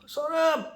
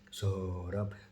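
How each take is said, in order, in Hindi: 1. नाम ऊंचे स्वर में बोला गया है। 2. नाम बहुत नीचे स्वर में बोला गया है। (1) "चढ़ाई का ऊंचा स्वर में नहीं, सौरभ ऐसे नहीं" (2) "एकदम एकदम नीचे का जो स्वर है उसमें"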